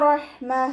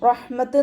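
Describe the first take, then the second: First: The word ends with a soft h sound. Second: The word ends with a clear t sound. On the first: The speaker calls it right. "ഹാ സുക്കൂനിൻ്റെ ഒരു sound feel ചെയ്യിപ്പിക്കുക" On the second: The speaker calls it wrong. "റഹ്മത്ത് എന്ന് പറഞ്ഞിട്ട് വഖഫ് ചെയ്യരുത്"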